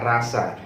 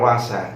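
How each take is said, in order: First: The R is clear and distinct. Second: The R is soft and English-like. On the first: The speaker calls it right. "tapi dibaca rasa. R-nya kena clear" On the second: The speaker calls it wrong. "jangan dibaca rasa ... semacam orang orang putih"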